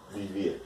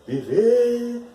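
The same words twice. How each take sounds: First: Said in the usual way. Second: Viver sung out high and loud, stress on the last syllable ver; stressed demo word. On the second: Shown as a demonstration. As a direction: lift Viver up high to show where it splits. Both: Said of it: "Radical e vive".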